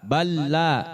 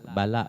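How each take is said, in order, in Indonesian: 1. Bunyi l di tengah ditekan dan ditahan panjang. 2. Bunyi l di tengah pendek dan ringan. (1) "Tapi ditekan" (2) "Bukannya ala, bala, bukan"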